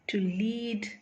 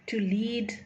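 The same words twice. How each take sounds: Both takes have the same delivery.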